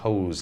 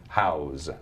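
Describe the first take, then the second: First: The vowel sounds like the word 'hose'. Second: The vowel sounds like the word 'house'. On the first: The speaker calls it right. "actually pronounced Hose Landing" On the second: The speaker calls it wrong. "A lot of people mispronounce that"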